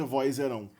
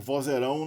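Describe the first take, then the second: First: "vozerão" said as "voizeirão", with an i before the z; disallowed i glide. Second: Said in the usual way. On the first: Shown as a demonstration. Teacher showing an impossible form, i glide in "vozerão". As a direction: slip an i into the first syllable of "vozerão". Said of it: "não pode ser". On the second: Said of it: "não pode ser vozerão".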